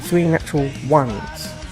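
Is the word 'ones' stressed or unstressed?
stressed. The word 'ones' carries strong emphasis. The speaker calls it right. "emphasize the word one"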